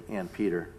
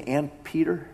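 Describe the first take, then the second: First: "And Peter" said low and soft, settled; "And Peter" as a tender confirmation; quiet assurance. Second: Higher, asking "And Peter" in disbelief; "And Peter" lifted as a stunned question; incredulous question. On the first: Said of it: "And truly he did say". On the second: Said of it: "Did he really say". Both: Shown as a demonstration.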